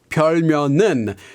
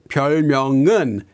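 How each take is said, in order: First: The second syllable ends with an n sound. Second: The second syllable ends with an ng sound. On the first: The speaker calls it wrong. "she pronounces it more like 별면은. So with an n sound instead of that ng sound" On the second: The speaker calls it right. "Here she has to make this ng sound"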